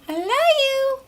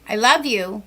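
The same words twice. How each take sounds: First: It stays on a high pitch at the end. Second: The pitch drops low at the end.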